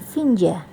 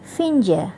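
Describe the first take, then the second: The two takes are said the same way.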